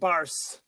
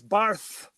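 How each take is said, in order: First: The 'c' is said as a plain 's'. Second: The 'c' is said as a lisped 'th'. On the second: "he had a lisp"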